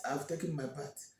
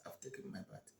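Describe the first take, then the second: First: Said in the usual way. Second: Breathy whispered reply, barely audible. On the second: Acted. Olama whispering back to the mocking women. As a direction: let it sink to a whisper, withdrawn.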